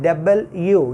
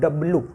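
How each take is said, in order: First: The letter is said as full 'double you'. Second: The letter is said as a clipped 'dablu'. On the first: The speaker calls it right. "This letter should be pronounced डबल यू, यू plus यू" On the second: The speaker calls it wrong. "Commonly हमारे यहाँ northern India में लोग पढ़ते हैं डब्लू डब्लू। This is somewhere और the other wrong."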